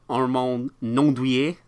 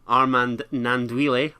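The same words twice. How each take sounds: First: The name is said with French-style pronunciation. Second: The name is said with English-style pronunciation.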